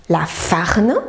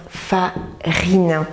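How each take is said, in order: First: FARNE with the I left out; omitted vowel. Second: FARINE slowly in syllables, FA-RINE; FA, then RINE, split apart; correct word. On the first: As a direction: misread farine as "farne". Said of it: "il manque le I". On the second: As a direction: say farine with a clear I. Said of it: "pour faire farine". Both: Shown as a demonstration.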